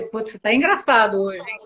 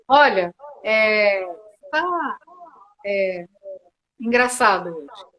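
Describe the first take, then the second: First: Light teasing remark in one easy breath; playful teasing. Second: Slow halting delivery, long pauses between words; hesitant, halting. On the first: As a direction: tease them lightly and smoothly. (tom brincalhão e provocador, sem pausas) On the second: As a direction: drag it out hesitantly, stopping after each word. (dito devagar e hesitante, com pausas longas) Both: Shown as a demonstration. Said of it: "A entonação é diferente".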